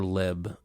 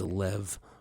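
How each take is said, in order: First: The word ends with a b sound. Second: The word ends with a v sound. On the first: "L E B" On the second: "L E V"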